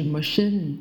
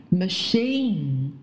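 First: "machine" with a short second vowel, like mə-shin; wrong machine. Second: "machine" with a long ee and full final n; correct machine. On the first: Teacher showing what to avoid, short "machine". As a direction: shorten the last syllable of "machine". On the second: Teacher modelling an example, long-ee "machine". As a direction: draw out the second syllable of "machine". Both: Shown as a demonstration. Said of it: "不是machine".

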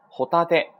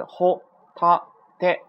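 First: Said in the usual way. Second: ホタテ slow, high and louder, each kana apart. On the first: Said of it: "连起来". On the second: Shown as a demonstration. Teacher breaks down three kana, ホタテ syllable by syllable. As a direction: punch out ホ, タ, テ with gaps between. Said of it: "有三个假名组成".

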